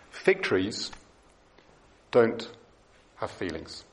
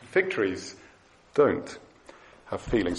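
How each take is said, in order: First: Fig trees, don't, have feelings each said apart with pauses; slow emphatic stress. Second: Fig trees, don't, feelings each set apart with pauses; repeated slow stress. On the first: Preacher to congregation, stating it slowly and emphatically. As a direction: lay it down word by word, low and firm. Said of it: "It's very important". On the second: Preacher repeating the point to congregation, slow and emphatic. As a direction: say it once more, slow and firm. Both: Shown as a demonstration.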